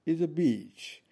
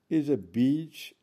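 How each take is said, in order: Both takes have the same delivery.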